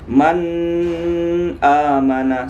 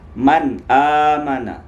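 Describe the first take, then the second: First: The n is held with a nasal hum. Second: The n is clear with no nasal hum. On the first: The speaker calls it wrong. "jangan dibaca begini. Man amana, salah" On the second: The speaker calls it right. "Tapi dia jelas"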